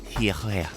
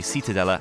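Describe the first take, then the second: First: The name is said the local way, soft and breathy. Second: The name is said with a plain English pronunciation. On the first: This imitates how a local says it. "I heard our car hire lady call this like Hiere, or some similar movement of air through your mouth" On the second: This is the speaker's own anglicized version. "my English corruptions of the Spanish names"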